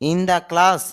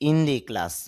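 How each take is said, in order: First: The word 'the' is pronounced with a short 'duh' vowel. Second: The word 'the' is pronounced with a long 'dee' vowel. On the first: "in দ্য class নাকি" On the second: "নাকি in দি class?"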